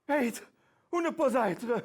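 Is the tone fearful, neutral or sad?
fearful. It is said in a fearful, anxious tone.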